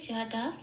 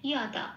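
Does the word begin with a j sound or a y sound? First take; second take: j sound; y sound. First: The word begins with a j sound. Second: The word begins with a y sound. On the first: This is the Bengali reading. The speaker calls it wrong. "এটা আমি বাংলায় বললাম" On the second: This is the Sanskrit reading. The speaker calls it right. "উচ্চারণটা বাংলা জয়ের মতো হবে না, কি হবে ইয়"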